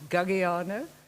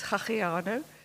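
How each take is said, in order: First: The name is said with an English accent. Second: The name is said with an Afrikaans accent. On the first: This is how it is said in the English department. "In the English department" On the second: This is how it is said in Stellenbosch. "in Stellenbosch, it becomes"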